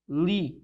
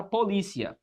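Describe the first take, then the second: First: "polícia" broken up with long pauses, po-lí-cia; split into syllables. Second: Said in the usual way. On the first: Shown as a demonstration. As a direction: separate each syllable of "polícia", keeping "cia" as one. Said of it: "ela dá-se assim". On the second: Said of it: "Perceba que a palavra polícia".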